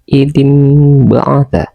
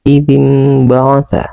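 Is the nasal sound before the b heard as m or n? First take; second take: m; m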